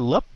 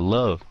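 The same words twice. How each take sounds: First: The lips close at the end of the word. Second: The lips stay open with a light final sound. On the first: The speaker calls it wrong. "Nhiều bạn đóng cái môi hơi sớm quá" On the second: The speaker calls it right. "nó là love"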